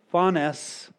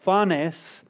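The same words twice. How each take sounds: First: "phanes" repeated clearly as FAH-ness. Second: "phanes" said slowly as FAH-ness, Greek style; Greek word phanes. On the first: Preacher repeating the Greek word after spelling it. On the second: Preacher teaching the congregation a Greek word, sounded out. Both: Shown as a demonstration. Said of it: "in English it's spelled P H A N E S".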